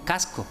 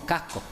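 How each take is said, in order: First: The inner s is a clear s. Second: The inner s becomes a breathy h. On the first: This is how other regions say it. "No decimos" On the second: This is how locals say it. "se queda transformada en H aspirada"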